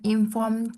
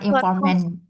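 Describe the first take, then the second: First: The word ends with a 'd' sound. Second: The word ends with an 'nt' sound. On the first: The speaker calls it right. "Bacanya informed consent" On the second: The speaker calls it wrong. "Bukan informant"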